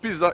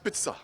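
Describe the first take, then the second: First: The middle consonant is a plain z sound. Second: The middle consonant is a ch-like sound. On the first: The speaker calls it wrong. "it's not pizza" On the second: The speaker calls it right. "when you see Z, it's always like chia"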